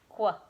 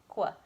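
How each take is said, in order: First: It starts with a hard 'kw' sound. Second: It starts with a hard 'kw' sound.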